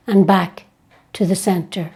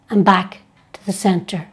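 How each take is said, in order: Both takes have the same delivery.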